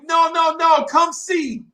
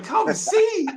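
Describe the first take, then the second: First: High, loud call with drawn-out ending; calling back. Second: Very high incredulous question; baffled echo. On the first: Girls waving back from afar, high shouted invitation. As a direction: imitate girls hollering from far off. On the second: Echoing the girls' odd phrase, high-pitched bafflement. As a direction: squeak it back in mock disbelief. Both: Retold or imitated.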